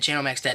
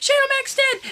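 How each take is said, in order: First: Said in the usual way. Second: Shocked shout. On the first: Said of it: "everybody was saying". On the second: Pretend. Fan calling Shane's fall, shocked and high. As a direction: cry it out as if he really fell. Live play-by-play of the match.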